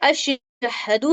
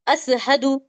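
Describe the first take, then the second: First: The middle consonant is a 'sh' sound. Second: The middle consonant is an 's' sound. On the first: The speaker calls it right. "जैसे अशहदु है" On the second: The speaker calls it wrong. "श को सीन जैसा पढ़ने लगते हैं"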